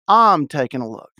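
It is said in a Texan accent, 'Ahm'. "if you want to sound like a Texan, you say A-H apostrophe M taking a look"

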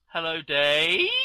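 The voice rises at the end.

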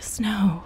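It is said solemnly, like a prayer's amen.

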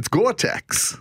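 It is said in George's New York accent.

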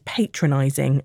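It is said with an American pronunciation. The speaker calls it wrong. "for an American to tell me something is patronizing"

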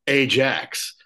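The name is said the American way.

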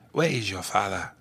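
It is said with an African accent. The speaker calls it right. "That's how you say African accent"

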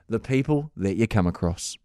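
It sounds slow and reflective, like musing. The speaker is reflecting on the encounter. "I'll change the inflection"

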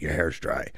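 It is said in a mean, harsh tone.

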